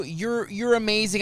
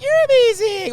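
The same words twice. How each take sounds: First: Said in the usual way. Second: Much higher, loud retold gush; gushing compliment. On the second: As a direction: throw the praise back excitedly. Excitedly returns the compliment.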